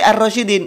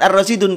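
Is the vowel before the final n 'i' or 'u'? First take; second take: i; u. First: The vowel before the final n is 'i'. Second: The vowel before the final n is 'u'. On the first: The speaker calls it right. "tapi ar-rasyidin" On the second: The speaker calls it wrong. "bukan ar-rasyidun"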